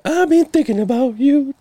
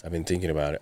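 First: Much higher, playful crooning of "you"; sing-song come-on, pitched way up; mock flirty sing-song. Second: Said in the usual way. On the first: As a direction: tease him like a lovesick crooner. Teasing flirty aside to cohost.

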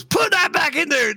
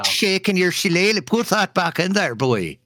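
First: Put-on high, yelled stab at an Irish accent; angry Irishman impression, pitched way up; bad Irish accent. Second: High, mock Irish lilt dropping at the end; playful, badly faked Irish accent; hammed-up Irish accent. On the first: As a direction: holler it in a botched Irish accent. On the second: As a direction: ham it up as a stage Irishman. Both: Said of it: "I can't do an Irish accent".

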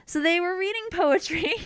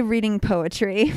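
First: High, singsong euphemism; teasing innuendo. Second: Said in the usual way. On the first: Acted. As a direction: say it coyly, knowingly. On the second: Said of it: "So we would just say".

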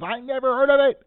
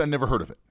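First: High, loud mock yell of the driver. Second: Said in the usual way. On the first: Driver yelling at a tourist, mock yell. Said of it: "he yells". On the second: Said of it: "He doesn't say".

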